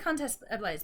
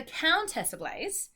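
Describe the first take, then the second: First: Countess with a short, open first vowel; original-style pronunciation. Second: Countess with a clear, drawn-out COUN; over-articulate Countess, slow and higher, with a full ow vowel; particular, careful pronunciation. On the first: Retold or imitated. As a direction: say Countess with the first syllable unglided. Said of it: "sounds really rude in my Australian accent". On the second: Shown as a demonstration. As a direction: say Countess very deliberately, rhyming COUN with town. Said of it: "say Countess and make it really particular".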